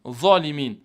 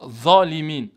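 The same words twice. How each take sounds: No difference in how they are said.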